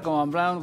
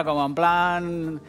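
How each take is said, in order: First: Said in the usual way. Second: Mock posh drawl. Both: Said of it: "como haciéndoos los finos".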